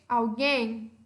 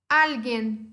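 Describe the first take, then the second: First: It is said with Portuguese word stress. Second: It is said with Spanish word stress. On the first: "Português" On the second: "Em espanhol"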